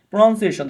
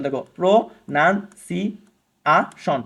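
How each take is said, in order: First: Said in the usual way. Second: প্রনাউন্সিয়েশন drawn out very slowly, five parts apart; slow teacher split of প্রনাউন্সিয়েশন; syllable by syllable. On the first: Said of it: "পাঁচ ভাগে". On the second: Shown as a demonstration. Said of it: "পাঁচ ভাগে ভে-, ভাঙা যায়".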